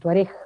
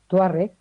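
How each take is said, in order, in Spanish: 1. El acento está en la última sílaba. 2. El acento no está en la última sílaba.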